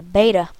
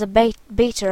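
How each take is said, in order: First: Beta is said in an American accent. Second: Beta is said in a British accent. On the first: The speaker calls it right. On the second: The speaker calls it wrong.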